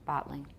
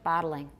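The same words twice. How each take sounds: First: It is said with two syllables. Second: It is said with three syllables. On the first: "That's two" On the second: "I have three"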